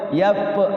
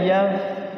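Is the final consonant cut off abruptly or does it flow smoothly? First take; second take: abrupt; smooth. First: The final consonant is cut off abruptly. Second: The final consonant flows out smoothly. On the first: The speaker calls it wrong. "nggak boleh yap yap yap" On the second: The speaker calls it right. "tapi ngalir dia"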